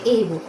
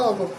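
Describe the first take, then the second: First: ए बुक with a long ए before बुक; mock the wrong ए बुक; wrong pronunciation. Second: अ बुक with a short, weak अ; teacher giving the right अ बुक, softer and lower; correct pronunciation. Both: Shown as a demonstration. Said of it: "ए नहीं बोला जाता".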